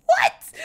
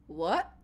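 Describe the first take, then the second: First: High, loud, incredulous what; loud bafflement. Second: Low, soft, puzzled what; a small, stunned question under the breath; quiet bafflement. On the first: Nikolai clueless about what has happened, loudly baffled. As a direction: squeak it out in utter confusion. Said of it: "Nikolai having no fucking clue about". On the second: Nikolai reacting to the impaling, quietly baffled. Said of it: "like, Nikolai's face. It's just like". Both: Acted.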